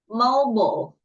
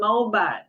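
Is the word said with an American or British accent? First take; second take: American; British. First: The word is said in an American accent. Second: The word is said in a British accent. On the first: "Mobile is American English" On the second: "mobile is British English"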